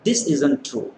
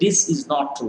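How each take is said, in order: First: The words is not are contracted to isn't. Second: The words is not are said in full. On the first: The speaker calls it right. "we say this isn't true" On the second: The speaker calls it wrong. "We don't say this is not true"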